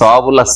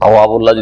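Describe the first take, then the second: First: The word begins with a th-sound. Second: The word begins with a t-sound. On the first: The speaker calls it right. "সা দিয়ে রয়েছে" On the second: The speaker calls it wrong. "যদি পড়েন"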